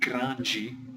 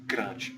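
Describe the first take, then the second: First: The word is said with two syllables. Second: The word is said with one syllable. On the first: "in some places of Brazil they have two syllables" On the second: "which is just one syllable"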